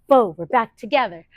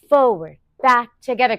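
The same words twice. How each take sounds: First: It is said a little faster. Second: It is said at a normal pace.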